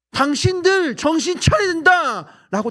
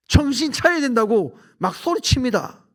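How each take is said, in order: First: Loud, high, slow preacher's shout; shouting at inmates. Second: Said in the usual way. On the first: Retold or imitated. Preacher shouting at hundreds of inmates, loud and high. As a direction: bellow it at the crowd of prisoners. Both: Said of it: "제가 막 소리칩니다".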